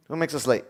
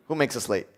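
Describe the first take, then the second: No difference in how they are said.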